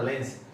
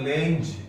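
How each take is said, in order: First: The word ends in an s sound. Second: The word ends in a z sound. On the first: The speaker calls it wrong. "बोलते सारे गलत हैं, इसको लेंस बोलते हैं" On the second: The speaker calls it right. "ये होता है लेंज"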